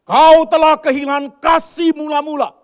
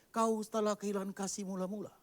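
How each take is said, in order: First: Slow, booming preacher's shout; thundering rebuke. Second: Said in the usual way. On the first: Acted. Preacher booming God's verdict at the church. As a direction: roar it down from the pulpit.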